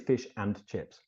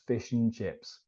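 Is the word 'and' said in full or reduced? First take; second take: full; reduced. First: The word 'and' is said in full. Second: The word 'and' is reduced to 'un'. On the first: The speaker calls it wrong. "We don't say" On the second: The speaker calls it right. "and in a sentence, if it's not stressed, becomes un"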